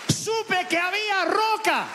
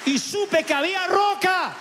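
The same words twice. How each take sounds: First: Slower, higher echo. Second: Slow, high testimony. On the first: Preacher echoing his revelation to the congregation. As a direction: repeat it slow and high, in awe. Repeated climax line. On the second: Preacher recalling the moment he found rock. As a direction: lift it slowly, with conviction. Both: Real, not acted.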